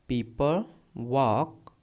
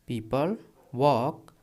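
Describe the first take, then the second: The two takes are said the same way.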